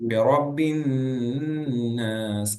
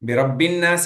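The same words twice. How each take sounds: First: The n is held with a nasal ghunna. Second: The n is said plainly without nasal hold. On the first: The speaker calls it right. "ன் அப்படிங்கிற ஒரு குன்னா குடுக்கணும்" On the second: The speaker calls it wrong. "பிரப்பின் நாஸ் இல்ல"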